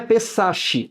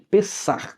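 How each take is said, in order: First: The final consonant is a soft sh sound. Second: The final consonant is a breathy throaty h. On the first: The speaker calls it wrong. "não é pesache" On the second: The speaker calls it right. "som de R R, o R aspirado"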